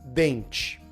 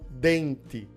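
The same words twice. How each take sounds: First: The 't' is said as a 'ch' sound. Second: The 't' is said as a plain 't'. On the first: Most people say it this way. "o correto vai ser" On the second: Some people in parts of the country say it this way. "com esse T mais forte"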